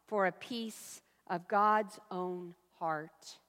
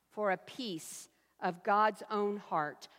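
Both takes have the same delivery.

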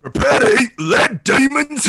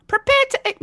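First: Higher, louder, slow hammy shout; gruff Wrecker read. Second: Much higher put-on voice; performed line. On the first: Pretend. [name] reading the line friends asked for, hammy shout. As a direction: bellow it like a drunk brawler. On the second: [name] attempting the requested line, high voice. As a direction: try it in the character's voice. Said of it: "give [name] a line to read like that".

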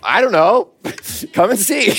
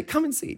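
First: Amused reply. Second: Simple invitation. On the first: Retold or imitated. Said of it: "And what can you say?". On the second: Shown as a demonstration. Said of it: "So just say".

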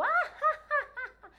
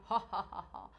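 First: Loud "ah-ha-ha" shot up very high; deliberate piercing high laugh; high-pitched demonstration laugh. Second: Short "ho ho ho" in the low register; staged low-register chuckle; low demonstration laugh. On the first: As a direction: jump to a high register and laugh hard. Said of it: "depois pro agudo". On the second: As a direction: laugh deliberately down low as an exercise. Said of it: "você dá risada pro grave". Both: Shown as a demonstration.

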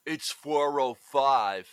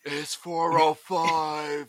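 First: Mild Seagal imitation, slowed; Seagal impression. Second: Very slow, heavy Seagal voice; deadpan Seagal, drawn out; Seagal impression. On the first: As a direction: drawl it flat like Steven Seagal. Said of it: "super whispery Seagal impression kind of voice". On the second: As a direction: stretch every word like Seagal. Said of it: "it was a good impression".

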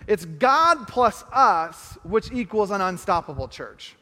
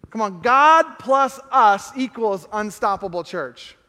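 First: Very slow, measured, each word weighed; slow equation. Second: Slow and louder, driving every word; rally the room with it, full voice; rousing proclamation. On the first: Pastor slowly adds to the equation for the church. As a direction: spell it out slowly and plainly. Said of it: "if we add to the equation". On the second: Pastor rallies the church with the equation, slow and loud. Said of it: "add to the equation". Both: Shown as a demonstration.

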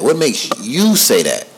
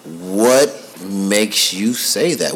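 First: "What makes you say that?" again at a moderately slow pace; quicker repeat. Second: Very slow, drawn-out "What makes you say that?"; slow probing question. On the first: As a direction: repeat it a little quicker than before. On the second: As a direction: stretch each word out, asking his son. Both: Retold or imitated. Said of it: "so I'm like".

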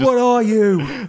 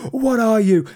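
First: High, slow mock chef bellow; hammed-up angry chef shout; Gordon Ramsay impression. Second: High, loud mock chef yell; hammed-up chef demanding an answer; Gordon Ramsay impression. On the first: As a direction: yell it at a useless cook. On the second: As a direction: bark it at the hapless cook. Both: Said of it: "a Gordon Ramsay voice".

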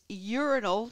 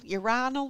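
First: "urinal" as YOOR-in-ul; first-syllable stress. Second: "urinal" as yoo-RYE-nul; second-syllable stress. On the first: Host unsure which one it is, "urinal" said YOOR-in-ul. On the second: Host unsure which one it is, "urinal" said yoo-RYE-nul. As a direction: stress a long "eye" in "urinal". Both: Shown as a demonstration. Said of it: "which one is it?".

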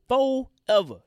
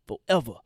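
First: Forever. hit high and loud; Forever. repeated with hard emphasis; stress on forever. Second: Said in the usual way. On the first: Real, not acted. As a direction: punch Forever. again as a verdict.

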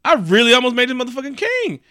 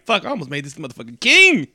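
First: High-pitched, hammed-up outrage; really mad. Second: Mock-angry realization, rising late in the line; really mad. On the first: Odin realizing who he nearly crowned, escalating outrage. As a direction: escalate the mock disbelief, pitched way up. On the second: Odin realizing who he nearly crowned, mock mad. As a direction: let the appalled realization build toward KING. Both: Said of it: "he got really mad".

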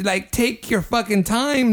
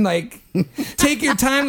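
First: Fucking and time hit hard in disbelief; emphatic. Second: Laughing. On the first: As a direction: stress fucking time, exasperated. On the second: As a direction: take your time said laughing. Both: Retold or imitated. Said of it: "I didn't mean to".

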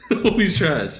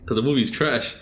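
First: Laughing through the words; higher, louder laugh-filled line. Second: Said in the usual way. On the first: Real, not acted. Repeats the line, laughing the second time.

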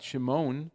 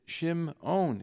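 First: Shimon quick and smooth, no break; wrong way. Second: Shimon slowly, broken up at the ayin; correct pronunciation. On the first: Rabbi contrasting the sloppy version, Shimon run together. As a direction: Shimon with the ayin swallowed. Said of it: "It's not". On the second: Rabbi modelling careful reading, Shimon slow and split. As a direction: Shimon drawn out with a break in the middle. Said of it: "it should be broken up". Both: Shown as a demonstration.

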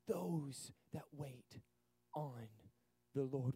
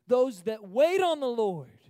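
First: Soft, very slow, low and drawn out; tender whispered scripture; hushed reverence. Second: Loud, slow declaration of scripture; ringing scripture read; bold proclamation. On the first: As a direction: let each word settle in quiet awe. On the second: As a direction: proclaim it to the back row. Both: Shown as a demonstration.

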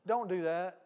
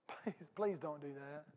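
First: Said in the usual way. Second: Softer and slower, gently begging; soft slow plea. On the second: Shown as a demonstration. Pastor gently pleading with the congregation, soft and slow. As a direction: plead softly, drawing it out.

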